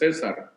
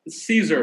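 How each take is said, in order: First: The name is pronounced with Spanish sounds. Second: The name is pronounced with English sounds.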